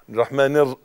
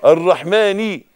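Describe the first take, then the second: First: The ending is swallowed through the nose. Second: The final kasra vowel is clearly voiced. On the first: The speaker calls it wrong. "من مناخيره" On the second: The speaker calls it right. "ني النون تحتها كسرة"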